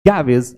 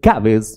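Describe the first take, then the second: Both takes have the same delivery.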